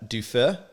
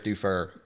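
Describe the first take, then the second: First: The name is said with a French ending. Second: The name is said with an American ending. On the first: The speaker calls it right. "That's how you correctly pronounce it. you got to have that little French wang there on the end" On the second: The speaker calls it wrong. "The best I can hope for here is"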